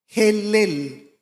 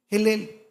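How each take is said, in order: First: Helel said slowly with a throaty Hebrew h, as xelel; Hebrew name. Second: Said in the usual way. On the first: Shown as a demonstration. Preacher tells the church the Hebrew name, pronouncing Helel with a throaty h. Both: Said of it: "el nombre que aparece en hebreo es Helel".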